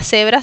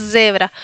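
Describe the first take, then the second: First: Cebra with a voiceless s; Spanish S sound. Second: Zebra with a long voiced buzz; vibrating Z. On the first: Teacher showing what not to say, plain s. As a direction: start cebra as SEH-bra, no buzz. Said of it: "No se pronuncia cebra". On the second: Teacher correcting cebra, voiced z. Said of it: "sino zebra". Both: Shown as a demonstration.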